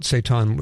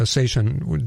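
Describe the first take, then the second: First: Seitan said as say-TAHN; usual own pronunciation. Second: Seitan said as SAY-shun; guest's pronunciation. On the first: Host asks guest about it his own way, seitan as say-TAHN. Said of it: "I've always pronounced it seitan". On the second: Host adopts guest's version mid-question, seitan as SAY-shun. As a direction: switch seitan to a sh sound, SAY-shun. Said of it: "so it's pronounced seitan". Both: Shown as a demonstration.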